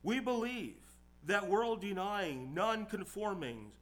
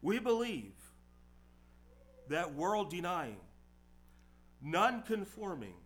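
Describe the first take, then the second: First: It is read at a faster pace. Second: It is read at a slower pace.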